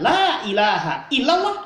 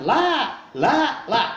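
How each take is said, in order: First: "La ilaha illallah" said slowly and complete, every syllable drawn out; slow full creed. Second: A dying man who can't get past "La", repeating it haltingly; dying man stuck. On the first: Shown as a demonstration. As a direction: recite "La ilaha illallah" slowly and fully, landing each word. (ucapkan "La ilaha illallah" perlahan dan lengkap) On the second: Acted. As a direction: stall on "La, la, la" as if the rest won't come. (orang sekarat tersendat, hanya bisa mengucap "La, la, la") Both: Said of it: "tidak mengatakan".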